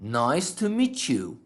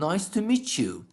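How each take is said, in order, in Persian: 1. t و y با هم ترکیب میشن و صدای 'ch' میدن. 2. t و y با هم ترکیب میشن و صدای 'ch' میدن.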